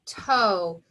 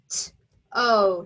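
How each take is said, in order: First: Said in the usual way. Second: "T-O" said as two separate letter names; spelling out letters. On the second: Shown as a demonstration. Teacher spelling the syllable for students, letter by letter. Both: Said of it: "Second syllable".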